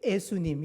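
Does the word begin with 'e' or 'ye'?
e. The word begins with a plain 'e' sound. The speaker calls it wrong. "이러는 경우들이 많은 걸"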